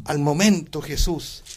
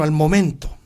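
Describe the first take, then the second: First: "momento" slow and weighted so they mark it; stress on momento. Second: Said in the usual way. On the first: Shown as a demonstration. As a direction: lean hard on "momento" in "al momento Jesús". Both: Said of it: "subraye eso".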